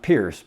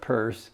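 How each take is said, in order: First: The name does not sound like 'purse'. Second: The name sounds like the word 'purse'. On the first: The speaker calls it wrong. "not Pierce" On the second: The speaker calls it right. "It's pronounced like a purse you carry around"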